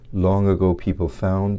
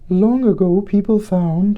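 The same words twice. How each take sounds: First: It is said in a low chest voice. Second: It is said in a high falsetto voice.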